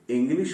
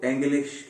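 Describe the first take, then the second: First: Said in the usual way. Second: एंग्लिश with an "en" first vowel; absurd misreading. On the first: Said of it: "इंग्लिश को एंग्लिश क्यों नहीं". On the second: Shown as a demonstration. Teacher mocking the "en" logic for students, एंग्लिश with an open E. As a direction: open the start of English into एंग्लिश. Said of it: "क्यों नहीं पढ़ते हम".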